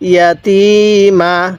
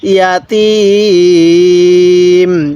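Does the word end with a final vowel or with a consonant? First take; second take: vowel; consonant. First: The word ends with a short final vowel. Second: The word ends on a consonant, vowel dropped. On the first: "মা ইয়াতিমা" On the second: "যদি আমরা এখন ওয়াকফ করি তাহলে ইয়াতিম"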